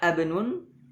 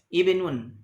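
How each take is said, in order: First: The word begins with an a vowel. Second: The word begins with an i vowel. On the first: The speaker calls it wrong. "Tidak dibaca abnun" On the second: The speaker calls it right. "dimulai dengan kasrah"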